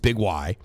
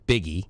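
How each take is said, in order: First: It is said as 'big' plus the letter 'why'. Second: It is said as one word ending in 'ee'. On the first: The speaker calls it right. "But no, it's Big Y" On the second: The speaker calls it wrong. "How do you pronounce that? Biggie"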